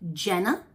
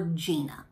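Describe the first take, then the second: First: The name is said like Jenna. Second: The name is said like Gina. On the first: "When I think Jenna, I think J E N N A" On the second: "when I think Gina, I think G I N A"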